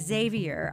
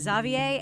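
First: The name is said with an American pronunciation. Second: The name is said with a non-American pronunciation. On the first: "while I pronounce Xavier's name Xavier" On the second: "our guest Clay Jeter pronounces it Xavier"

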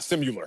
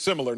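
First: The word has a y sound in the middle. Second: The word has no y sound in the middle. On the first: The speaker calls it wrong. "not similar" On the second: The speaker calls it right. "the word is similar"

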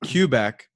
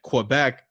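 First: It begins with a plain k sound. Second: It begins with a kw sound. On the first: The speaker calls it right. "With like a C is how he's pronouncing it" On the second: The speaker calls it wrong. "there is going to be some type of Southern twang on that"

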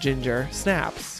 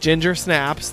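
First: The stress falls on the word Snaps. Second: The stress falls on the word Ginger. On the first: It says the girl goes crazy. "because she goes crazy" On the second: It names the cookie you eat. "the thing you eat"

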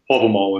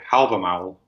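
First: The word is said with reconstructed Old Norse pronunciation. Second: The word is said with modern Icelandic pronunciation. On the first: "is the reconstructed Old Norse pronunciation" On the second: "which is the modern Icelandic pronunciation"

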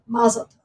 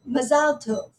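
First: It is said with an American stress pattern. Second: It is said with an Israeli stress pattern. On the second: "an Israeli might say mazal tov. So with the stress being one way"

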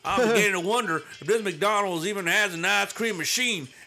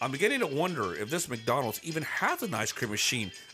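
First: It is read in a changed accent. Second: It is read in the first accent. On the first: The speaker calls it right. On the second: The speaker calls it wrong.

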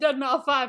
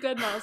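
First: The name ends with the sounds 'mau five'. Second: The name ends with the word 'mouse'. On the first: The speaker calls it wrong. "you know that's not how you say it" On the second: The speaker calls it right. "It's Dead Mouse"

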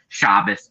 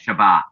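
First: The word is said the Ashkenazi, European way. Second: The word is said the Sephardic, Israeli way.

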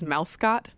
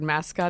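First: The first syllable sounds like 'mouse'. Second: The first syllable sounds like 'mass'. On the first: The speaker calls it wrong. "they think that the word mascot is mouse-scot" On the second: The speaker calls it right. "the word mascot"

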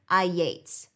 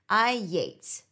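First: A Y glide links the two words. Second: A Y glide links the two words.

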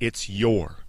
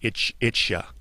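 First: The word after it's is said fully as your. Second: The word after it's is reduced to ya. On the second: "in American English, especially like in slang, you'll hear people say"

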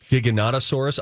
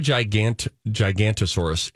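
First: The name is said with a 'no' syllable. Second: The name is said without a 'no' syllable. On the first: The speaker calls it right. "It's like the Giganotosaurus" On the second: The speaker calls it wrong. "It's not the Gigantosaurus"

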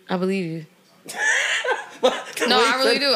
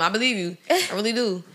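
First: It is said with a sarcastic tone. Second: It is said with a sincere tone. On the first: The speaker doubts what was said. The speaker calls it wrong. "Not like that" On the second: The speaker truly accepts what was said. The speaker calls it right. "With no sarcasm"

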